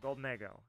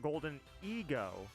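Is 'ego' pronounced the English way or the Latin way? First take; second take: Latin; English. First: Ego is said the Latin way. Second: Ego is said the ordinary English way. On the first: "it's pronounced ego, like ego sum" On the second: "that's why I don't call it Golden Ego"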